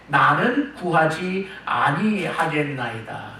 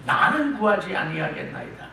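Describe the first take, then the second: First: Very slow and deliberate; the king's refusal read very slowly; slow, drawn-out quote. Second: Said in the usual way. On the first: Shown as a demonstration. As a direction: stretch each word out slowly.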